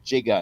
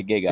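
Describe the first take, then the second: First: "giga" said as jigga; soft G. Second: Said in the usual way. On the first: Shown as a demonstration. Explaining the script's choice, "giga" with soft G. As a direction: begin "giga" with a J sound. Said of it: "instead of putting it back to giga". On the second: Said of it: "putting it back to giga".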